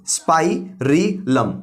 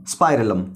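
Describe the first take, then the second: First: स्पाइरिलम broken slowly into spai, ri, lam; syllable by syllable. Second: Said in the usual way. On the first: Shown as a demonstration. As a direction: sound out स्पाइरिलम in three slow, separate parts. Teacher breaks new term into syllables. (स्पाइरिलम को धीरे-धीरे तोड़कर: स्पाइ, रि, लम)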